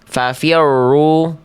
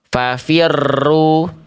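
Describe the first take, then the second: First: The r is barely trilled, almost faint. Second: The r is trilled heavily and too long. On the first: "getarannya justru memang betul-betul samar" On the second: "terlalu digetarkan secara berlebihan"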